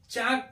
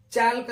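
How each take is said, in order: First: चाक with long vowel straight into K; silent L. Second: चालक with L heard before the final K; mistaken sounded L. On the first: Teacher shows how chalk is read, चाक without L. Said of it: "चाक पढ़ते हैं". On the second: Teacher warns off the misreading, चालक with L. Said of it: "चालक नहीं पढ़ते". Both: Shown as a demonstration.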